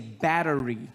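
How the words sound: Battery is said in an American accent. "So in America you say battery"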